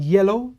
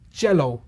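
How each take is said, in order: First: The word begins with a Y sound. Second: The word begins with a J sound. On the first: The speaker calls it right. "instead of saying yellow" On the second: The speaker calls it wrong. "like with the sound of a J"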